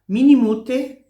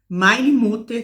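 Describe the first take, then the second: First: It is said in Swiss German dialect pronunciation. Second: It is said in standard German pronunciation. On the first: "Aqui na Suíça eles falam mini" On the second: "você está lá estudando alemão"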